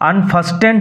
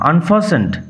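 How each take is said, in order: First: The t sound in the middle is pronounced. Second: The t sound in the middle is silent. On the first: The speaker calls it wrong. "আনফাস্টেন্ড হবে না" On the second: The speaker calls it right. "T will remain silent"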